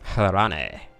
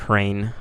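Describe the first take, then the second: First: The name is said as two syllables. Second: The name is said as one syllable. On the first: The speaker calls it right. "Harane probably is how you actually pronounce that" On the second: The speaker calls it wrong. "not Hrain"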